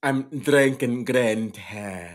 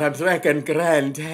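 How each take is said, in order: First: Slow Irish-Jamaican green tea; Irish Jamaican accent. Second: Louder, bolder Irish-Jamaican go; hammed-up Irish Jamaican accent. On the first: Host shows off his accent slip to his co-host. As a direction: stretch out an Irish Jamaican lilt, slowly. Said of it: "somehow Irish Jamaican". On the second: Host hams his accent for the listeners. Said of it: "That's right, folks". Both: Shown as a demonstration.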